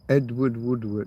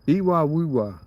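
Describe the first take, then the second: First: The D sounds are clearly said in the name. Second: The D sounds are left out of the name.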